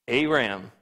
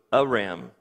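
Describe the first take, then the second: First: Aram with a long A, "AY-ram"; long A pronunciation. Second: Aram with a short first vowel, "uh-RAM"; no long A. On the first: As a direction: say the first vowel of Aram like "day". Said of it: "there's no long A in Hebrew". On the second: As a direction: open Aram on an unstressed "uh". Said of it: "there's no long A in Hebrew, so it's". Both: Shown as a demonstration.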